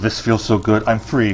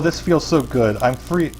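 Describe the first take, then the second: First: It is said in a deep, low voice. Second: It is said in a higher, non-deep voice. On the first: The speaker calls it right. "He needs to have a deep voice" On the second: The speaker calls it wrong. "I'm wrong voice"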